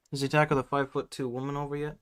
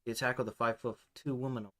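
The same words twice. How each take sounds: First: Wrong character voice. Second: Softer redo in the right voice; corrected character voice. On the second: Redoing the line in the right character's softer voice. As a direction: fix the voice, say it again quietly. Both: Acted. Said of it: "I'm getting my fucking voices mixed up".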